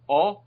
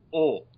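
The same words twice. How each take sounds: First: "O" as an open "aw", pitched up; isolated open "O" vowel. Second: "O" as a rounded, closed vowel; isolated closed "O" vowel. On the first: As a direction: demonstrate "O" with an open mouth. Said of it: "you can see it's more open". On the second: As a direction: demonstrate "O" with a narrower mouth. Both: Shown as a demonstration.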